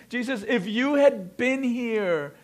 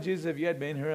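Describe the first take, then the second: First: It is said in a desperate, urgent way. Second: It is said in a casual, offhand way.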